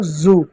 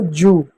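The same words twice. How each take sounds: First: जू with a buzzing Z, "zoo"; Z sound. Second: जू with a hard J, "joo"; J sound. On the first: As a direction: start जू on a voiced Z. (जू को Z वाले ज़ से बोलें) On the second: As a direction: start जू on a J, not a buzz. (जू को सख़्त ज से बोलें) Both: Shown as a demonstration. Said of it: "ज और ज में अंतर".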